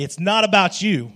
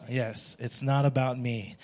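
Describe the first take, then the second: First: It's not about you, said louder. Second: Quiet, slow it's not about me; a half-hearted congregation murmur; softer. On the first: Congregation told to face neighbors, says it louder. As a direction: point it at your neighbor with relish. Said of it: "louder than". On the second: Pastor leading a quiet response, slow and soft. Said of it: "why was it's not about you louder". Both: Shown as a demonstration.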